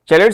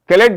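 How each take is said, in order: First: The word begins with a ch sound. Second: The word begins with a k sound. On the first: "चैलेट से भी करते हैं" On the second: "कैलेट भी बोला जाता है"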